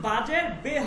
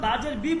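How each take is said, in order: First: The final vowel sounds like 'eh'. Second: The final vowel sounds like 'ee'. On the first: This is how it is read in Persian. "ফার্সিতে কিন্তু বাজের বে হবে" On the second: This is how it is read in Arabic. "আরবিতে যেমন বাজের বি বলি"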